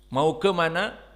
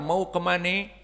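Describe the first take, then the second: First: It is said in a standard Indonesian accent. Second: It is said in a Betawi Jakarta accent. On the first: "bahasa Indonesia yang murni asli" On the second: "dialek bahasa Indonesia ini dipakai oleh orang Betawi"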